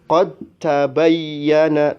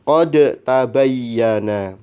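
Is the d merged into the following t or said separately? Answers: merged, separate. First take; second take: merged; separate. First: The d fully merges into a doubled t. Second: The d is pronounced separately before t. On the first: The speaker calls it right. "maka dibaca" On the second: The speaker calls it wrong. "tidak boleh dibaca"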